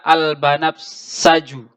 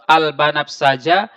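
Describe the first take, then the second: First: The word ends with a 'u' vowel. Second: The word ends with an 'a' vowel. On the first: The word is in the nominative case. "dengan cara marfu" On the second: The word is in the accusative case. "boleh kita baca mansub"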